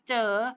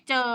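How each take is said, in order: First: The word is said with a rising tone. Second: The word is said with a low tone. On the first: "ไม่จัตวา" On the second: "ไม่เอก"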